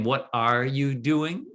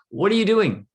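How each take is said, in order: First: It sounds like a non-native English speaker. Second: It sounds like a native English speaker.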